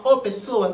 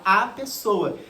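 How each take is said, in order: First: "o" singled out as the doubtful word; wrong-article example. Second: "a" singled out as the right word; correct-article example. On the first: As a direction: stress on "o" before "pessoa". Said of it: "você fala o pessoa?". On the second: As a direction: stress on "a" before "pessoa". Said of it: "Não, você fala a pessoa". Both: Shown as a demonstration.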